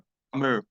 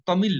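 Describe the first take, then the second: First: The word ends with a curled R-like sound. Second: The word ends with a clear L sound. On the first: This is how Tamil speakers say it. "तमिल अ अ ऐसे करके बोला जाता है" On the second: This is how Hindi speakers say it. "हम लोग तो उसे लॉ बोलते हैं"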